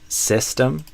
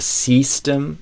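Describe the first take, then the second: First: The first vowel is short, near Portuguese ê. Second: The first vowel sounds like a long ee. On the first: The speaker calls it right. "it's still the same vowel sound" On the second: The speaker calls it wrong. "instead of system"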